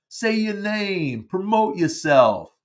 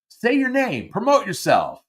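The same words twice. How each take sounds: First: Slow, drawn-out bad New York accent; amateur imitation of a New York accent. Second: Said in the usual way. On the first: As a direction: do a hammy New Yorker, words stretched out. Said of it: "he would say it in his New York accent". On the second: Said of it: "although he would say it in his New York accent".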